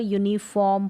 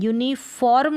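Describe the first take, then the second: First: यूनिफॉर्म as "yoo-ni-fawm", r nearly silent. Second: यूनिफॉर्म with a clearly sounded r before m; mispronunciation demo. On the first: Teacher showing how uniform is read, silent r. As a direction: say यूनिफॉर्म with the r dropped. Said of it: "थोड़ा silently आ रहा है". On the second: Teacher showing the reading to avoid, mispronunciation demo. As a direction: say यूनिफॉर्म with a full r. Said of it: "यूनिफॉर्म ना पढ़कर". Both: Shown as a demonstration.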